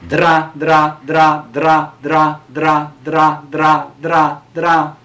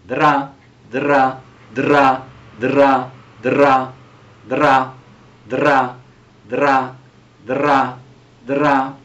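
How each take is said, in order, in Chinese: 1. 这些音节是以快速重复的。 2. 这些音节是以慢速重复的。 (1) "但是快一点" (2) "现在我们练习的慢慢来"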